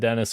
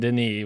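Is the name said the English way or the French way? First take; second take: English; French. First: The name is said like the English Dennis. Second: The name is said the French way. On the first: The speaker calls it wrong. "I said Dennis Villeneuve" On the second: The speaker calls it right. "I know it's fucking Denis"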